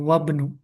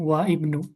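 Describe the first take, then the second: First: The 'i' is dropped, running into 'wabnu'. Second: The 'i' of 'ibnu' is pronounced separately. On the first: The speaker calls it right. "alifnya tidak dianggap, jadi wabnu" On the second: The speaker calls it wrong. "bacanya bukan wa ibnu"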